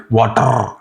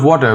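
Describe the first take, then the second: First: "water" ending in a long rolled R; hard R. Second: Said in the usual way. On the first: Shown as a demonstration. Teacher showing how Indians say it, rolled R ending "water". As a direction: roll the final R hard in "water". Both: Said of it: "we say it like water".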